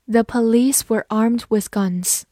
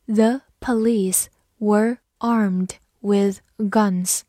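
First: Said in the usual way. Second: Very slow, word by word; slow reading. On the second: Shown as a demonstration. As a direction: drag each word out for learners. (很慢地逐词朗读) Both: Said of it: "好，慢读一遍。".

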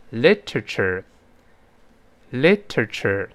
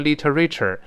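First: Slow "literature", stress on LIT, rest reduced; correct stress. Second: "literature" with a full "RAY" syllable; wrong pronunciation. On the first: Teacher models what it should be, first-syllable stress. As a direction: hit LIT in "literature" and pass lightly over the end. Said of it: "要读成". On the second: Teacher warns students with a parallel example, wrong pronunciation. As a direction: misread "literature" as li-tuh-RAY-cher. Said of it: "不能读成literature". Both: Shown as a demonstration.

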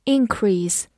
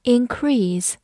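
First: Increase as a noun, stress on IN-; increase said IN-crease, first syllable stressed. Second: Increase as a verb, stress on -CREASE; increase said in-CREASE, second syllable long and falling. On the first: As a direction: hit the front of increase: IN-crease. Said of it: "重音放在了前面". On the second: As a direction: hit the back half of increase: in-CREASE. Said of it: "重音在后面". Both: Shown as a demonstration.

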